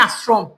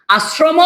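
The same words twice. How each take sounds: First: আশ্রম said as "asrom", stopping on the m; আশ্রম ending in a consonant; closed final m. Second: আশ্রম said as "asromo", with a long o at the end; wrong-option demo, আশ্রম ending in "mo"; final vowel added. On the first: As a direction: close আশ্রম on m with no vowel after it. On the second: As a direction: slowly add an open o after the m of আশ্রম. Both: Shown as a demonstration. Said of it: "আশ্রম নাকি আশ্রম?".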